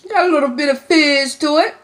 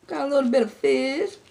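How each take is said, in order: First: Excited. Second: Said in the usual way. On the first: Real, not acted. First taste, fizzy drink.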